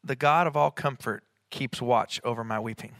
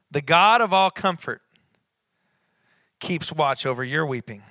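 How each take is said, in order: First: Said in the usual way. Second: "The God of all comfort" raised and louder, then settling with weight on "your"; stress on your. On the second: Real, not acted. Preacher turning the verse to the congregation, emphatic on "your". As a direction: punch "God", then land on "your" as the changed word.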